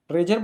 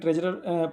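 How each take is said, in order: First: The word is said with two syllables. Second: The word is said with three syllables. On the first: This is how it is usually said. "ट्रेजर बोला जाता है ऐसे" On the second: This reading is also acceptable. "ट्रेजरर पढ़ सकते हो आप लोग, कोई दिक्कत नहीं"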